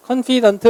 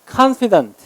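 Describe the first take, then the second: First: "confident" misread as a Koreanized "kon-PEE-dunt"; wrong pronunciation. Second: "confident" as "KAHN-fi-dunt", first syllable high; correct first-syllable stress. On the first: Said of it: "이렇게 읽으면 안 되고". ("confident"를 '콘피던트'로 잘못 읽기) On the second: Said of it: "강세는 이름절에 있어요". ("confident" 첫음절 '칸'에 강세) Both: Shown as a demonstration.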